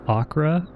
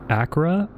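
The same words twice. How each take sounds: First: The middle consonant is a K sound. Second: The middle consonant is a K sound.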